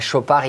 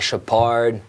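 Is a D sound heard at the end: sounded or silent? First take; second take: silent; sounded. First: The final D is silent. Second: The final D is pronounced. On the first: The speaker calls it right. "no D at the end as well" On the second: The speaker calls it wrong. "I don't say Chopard"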